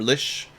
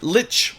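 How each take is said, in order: First: The word ends with a soft 'sh' sound. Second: The word ends with a hard 'ch' sound. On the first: This is the original pronunciation. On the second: This is the pronunciation that has become common. "Lich with the hard ch"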